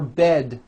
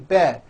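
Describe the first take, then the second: First: The final D sound is clearly released. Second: The final D sound is dropped. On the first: The speaker calls it right. "For bed" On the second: The speaker calls it wrong. "you may be saying"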